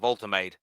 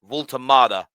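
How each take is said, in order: First: The name is said with an English pronunciation. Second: The name is said with a German pronunciation. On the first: The speaker calls it wrong. "That's the way the English would say it" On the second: The speaker calls it right. "Excuse the German accent"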